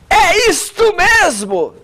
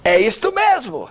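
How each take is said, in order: First: It is spoken loudly, in a strong voice. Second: It is spoken at a medium volume.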